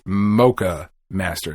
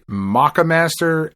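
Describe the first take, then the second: First: The first syllable sounds like 'moke'. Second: The first syllable sounds like 'mock'. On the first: "I've heard it pronounced the Mocha Master" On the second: "I've heard it pronounced the Maca Master"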